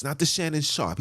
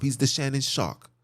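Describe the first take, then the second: First: Said in the usual way. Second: "Shark" in place of "Sharp", final k clear; "Shannon Shark" said with a hard k ending; mock name. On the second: Shown as a demonstration. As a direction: land the k in "Shark" as a mocking pun.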